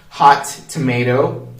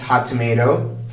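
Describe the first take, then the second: First: The two words are said separately. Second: The two words are linked together.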